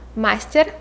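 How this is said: It is said with a Russian pronunciation.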